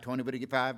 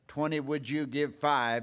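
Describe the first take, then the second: First: The filler words are slid together and shortened. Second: The words are spoken separately and clearly. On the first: "It's more like" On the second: "instead of saying"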